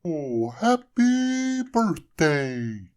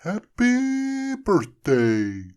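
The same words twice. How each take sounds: First: Very slow, high, loud snowman voice; snowman's first words. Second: Very slow, high, loud snowman greeting. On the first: Snowman coming to life, speaking first words. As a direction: stretch it out like waking up. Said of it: "said the snowman". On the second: Frosty speaking as the hat returns. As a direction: draw the words out joyfully. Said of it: "said Frosty again". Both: A narrator's reading.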